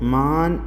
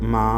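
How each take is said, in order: First: The word ends with a full n sound. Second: The word ends with a nasalized vowel, no consonant. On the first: The speaker calls it wrong. "മാം എന്നോ മാൻ എന്നോ നമ്മൾ ഉപയോഗിക്കാതെ" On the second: The speaker calls it right. "അതിൻ്റെ ഇടയിലാണ് ഇതിൻ്റെ ഉച്ചാരണം"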